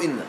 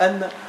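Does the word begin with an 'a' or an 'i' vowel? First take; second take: i; a. First: The word begins with an 'i' vowel. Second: The word begins with an 'a' vowel. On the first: "تكسر فيقال إن" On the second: "تفتح فيقال أن"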